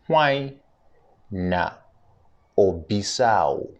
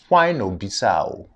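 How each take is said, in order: First: It is said slowly. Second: It is said at normal speed.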